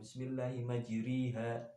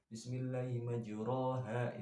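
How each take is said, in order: First: The vowel after r is a clear i. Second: The vowel after r is a full a. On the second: "itu kan asli fathah ya"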